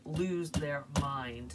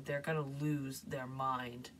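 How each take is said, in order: First: Slow, leaning hard on "lose"; "lose" stretched and stressed. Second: Said in the usual way. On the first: Shown as a demonstration. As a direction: drag out "lose their mind" with weight on "lose". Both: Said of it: "Like, lose their mind".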